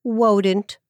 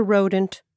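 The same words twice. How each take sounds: First: "wodent" with a W instead of the R. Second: Said in the usual way. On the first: Shown as a demonstration. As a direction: say "wodent", swapping the R for a W. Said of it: "couldn't pronounce his R's". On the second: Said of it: "a wodent".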